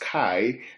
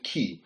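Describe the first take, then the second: First: The word is pronounced like 'kai'. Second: The word is pronounced like 'key'. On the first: This is how the speaker's own community says it. "We pronounce it as "kai,"" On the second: This is how Greek speakers say it. "I heard the Greek guys call it "key.""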